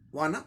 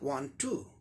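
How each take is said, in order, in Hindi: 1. दोनों शब्द मिलकर एक संक्षिप्त शब्द बन जाते हैं। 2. दोनों शब्द पूरे और अलग-अलग बोले जाते हैं।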